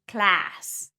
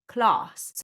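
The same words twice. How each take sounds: First: It is said with an American accent. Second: It is said with a Southern British accent. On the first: "With a general American accent, in fact, you'd say class" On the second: "not class"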